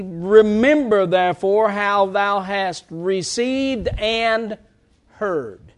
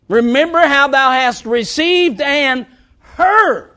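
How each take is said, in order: First: Slow verse reading, pause before "heard"; set-apart stress on heard. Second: Slow, raised verse with "heard" punched high; emphatic stress on heard. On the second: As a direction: hit "heard" loud after a short pause. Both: Shown as a demonstration. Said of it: "I emphasize that word heard".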